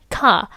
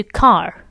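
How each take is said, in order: First: "Car" with no R, transatlantic style; R-less car. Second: "car" with the R sounded. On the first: Teacher has viewers hear the contrast, R-less "Car". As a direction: drop the R from "Car", leaving an open "cah". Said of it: "They're not saying the R". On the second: Teacher gives the comparison take, "car" with its R. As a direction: let the R ring at the end of "car". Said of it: "Compared to car". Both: Shown as a demonstration.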